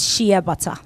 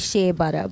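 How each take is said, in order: First: Shea is said the Ghanaian way. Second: Shea is said the American way. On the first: This is how people in Ghana say it. "But in Ghana, it's shea butter" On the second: This is how Americans say it. "the Americans say shea butter"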